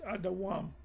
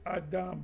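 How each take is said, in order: First: The word is said in three syllables. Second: The word is said in two short syllables. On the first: The speaker calls it right. "it's supposed to be Adawam" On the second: The speaker calls it wrong. "you would read it like this"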